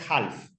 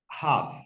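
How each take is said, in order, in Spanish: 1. La L se pronuncia en «half». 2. La L es muda en «half». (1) "no es half" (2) "Esa L no se pronuncia, es una L muda"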